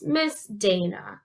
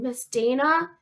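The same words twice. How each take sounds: First: "Miss Dana" slow, in separate beats; syllable by syllable. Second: Said in the usual way. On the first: Shown as a demonstration. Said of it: "it's three total if you count Miss". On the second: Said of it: "how many syllables are in your name".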